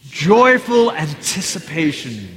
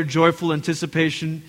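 First: Slow, hearty group-leading cry; with gusto. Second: Said in the usual way. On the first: Shown as a demonstration. Preacher leads congregation in saying it together, with gusto. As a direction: stretch it out with real gusto. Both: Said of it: "Say it with gusto".

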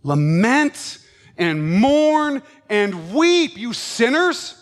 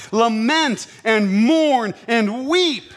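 First: Very slow, louder lament; solemn exhortation. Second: Slow, drawn-out lament; solemn scripture. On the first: Preacher repeating James to sinners, very slow and urging. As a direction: drag it out, pleading with them. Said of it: "repeats verse, slower and stronger". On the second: Preacher reading James to his congregation, slow and solemn. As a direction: stretch each word like a dirge. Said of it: "slow emphatic scripture reading". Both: Acted.

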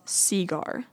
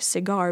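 First: "cigar" said SEE-gar; heavy stress on SEE in "cigar"; stress on first syllable. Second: "cigar" said sih-GAR; usual second-syllable stress. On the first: Vlogger showing the Southern US version, cigar stressed on SEE. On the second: Vlogger showing the standard version, cigar stressed on GAR. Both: Shown as a demonstration. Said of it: "heavy stress on the first syllable".

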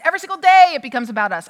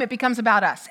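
First: Louder, faster push on day; every single day, punched louder and quicker; emphatic. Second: Said in the usual way. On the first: Acted. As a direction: press the point hard.

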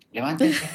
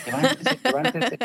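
First: Put-on a firm wake-up call to the kids; first wake-up call; calling kids awake. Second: Much higher, louder yell to get up; exasperated mom yelling them awake; shrill wake-up yell. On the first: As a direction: call them out of bed, louder. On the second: Retold or imitated. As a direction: yell at the kids to get up now. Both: Mother waking kids, escalating.

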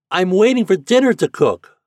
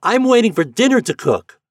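First: Put-on high, loud boyish holler; child calling out at full voice; boy shouting. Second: Very high, loud piping reply; high-pitched child calling back; piping boy's voice. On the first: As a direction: shout it through a megaphone to a distant boat. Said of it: "the boy shouted again". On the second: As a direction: pipe up like a small boy calling out. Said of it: "answered in his piping voice". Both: A narrator's reading.

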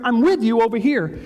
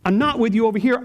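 First: "with" pressed and falling; stress on with. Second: "not" hit with a rising push; stress on not. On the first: Pastor assuring the church God is near, stressing with. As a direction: land firmly on the word "with". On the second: Pastor contrasting "not with you" for the church, stressing not. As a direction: lean hard on the word "not". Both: Shown as a demonstration.

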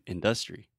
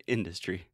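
First: In-DUS-tree, middle syllable stressed; Trump's stress. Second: Industry as IN-duh-stree; first-syllable stress. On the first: Retold or imitated. Teacher mimics Trump's slip, industry stressed on DUS. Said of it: "and he's saying industry". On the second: Shown as a demonstration. Teacher gives the standard form, industry stressed on IN. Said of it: "we say industry".

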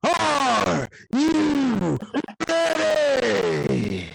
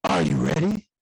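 First: Hammed-up arena hype, laughing at the end; shouted ring call. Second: Low growled wrestler call; lightly voiced Triple H, lower and gruff. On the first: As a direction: belt it to the crowd. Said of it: "I said". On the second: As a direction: do a Triple H "are you ready". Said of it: "in my Triple H voice".

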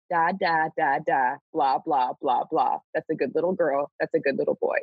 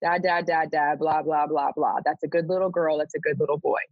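First: Sing-song, patronising baby babble, lightly voiced; mock baby talk. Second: Put-on sing-song, condescending baby talk, lightly done; mock baby talk. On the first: God addressing the people like toddlers, mock baby talk. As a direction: coo at them like toddlers, one syllable at a time. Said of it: "address them in baby talk". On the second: Reader mocking a prophet who talks down to them, mock baby talk. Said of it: "to be talked down to".

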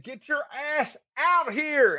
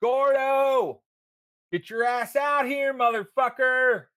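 First: Put-on drunk yelling. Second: Put-on drunk yelling from the street. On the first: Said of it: "I said". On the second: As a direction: yell for him to come out, drunk and rowdy.

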